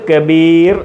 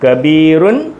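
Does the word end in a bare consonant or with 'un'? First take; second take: bare consonant; with un. First: The word ends on a bare final consonant. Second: The word ends with a nasal 'un' ending.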